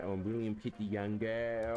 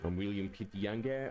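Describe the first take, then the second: First: Drawn-out mock-English statesman; slower posh British cosplay. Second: Plummy mock-English prime minister; posh British cosplay. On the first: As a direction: stretch it out like a pompous prime minister. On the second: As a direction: play the stuffy British statesman. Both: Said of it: "Australian Prime Ministers back then used to cosplay".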